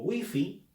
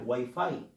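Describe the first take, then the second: First: The word is said with a Spanish pronunciation. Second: The word is said with an English pronunciation. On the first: This is the form adapted into Spanish. "Se ha adaptado al español como wifi" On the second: This is how English reads it. "aunque el inglés exija que se lea wifi"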